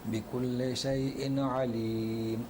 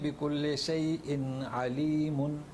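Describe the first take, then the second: First: The word ends on m with no ending. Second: The word ends with a full -un ending. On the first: The reciter stops at the end of the verse. "बिकुल्ले शैइन अलीम है ना, तो अलीमुन नहीं है" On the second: This is the underlying form without stopping. "असल में बिकुल्ले शैइन अलीमुन, मगर अलीमुन नहीं लिखा हुआ है"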